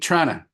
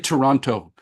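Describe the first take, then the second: First: The name is squeezed into two short syllables. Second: The name is said with all three syllables. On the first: The speaker is a local. The speaker calls it right. "you got to say it the way Torontonians say it" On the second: The speaker is a visitor. The speaker calls it wrong. "Don't say Toronto. Then we know you're a visitor"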